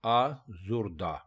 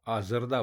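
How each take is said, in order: First: आजुर्दा with a short u after the z, aa-zur-daa; correct pronunciation. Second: आजरदा with an a after the z, aa-zar-daa; common wrong form. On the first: Teacher giving the right form: आजुर्दा as aa-zur-daa. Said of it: "दुरुस्त लफ्ज़ है". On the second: Teacher showing the mistake: आजरदा as aa-zar-daa. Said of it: "जिससे ये गलत हो जाता है". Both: Shown as a demonstration.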